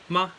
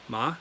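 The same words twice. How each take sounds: First: The pitch is short and unmarked. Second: The pitch rises toward the end. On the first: "ma means neutral tone" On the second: "and then ma, second tone"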